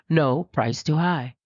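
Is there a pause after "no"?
no. It runs straight on without a pause after no.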